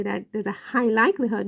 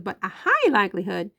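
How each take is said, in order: First: Said in the usual way. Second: High said with weight, likelihood lighter; emphasis landing on high, not on likelihood; stress on high. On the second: Shown as a demonstration. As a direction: lean into the word high. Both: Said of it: "emphasis on the word high".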